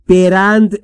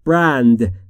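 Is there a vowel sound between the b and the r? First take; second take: yes; no. First: An extra vowel separates the b and the r. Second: The b and r join with no vowel. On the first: The speaker calls it wrong. "برند نیست" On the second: The speaker calls it right. "بین B و R صدایی وجود نداره"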